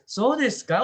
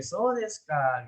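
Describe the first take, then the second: First: Louder, much higher "So desu ka" as a question; rising question intonation. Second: Slow "So desu ka" that drops to a close; falling intonation. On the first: Teacher mocking an endless question loop, "So desu ka" pitched up. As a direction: push "So desu ka" up high, still asking. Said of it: "Udah nggak selesai-selesai tuh gitu". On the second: Teacher showing how to end the exchange, "So desu ka" falling. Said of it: "mau selesai ya diturunin ya". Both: Shown as a demonstration.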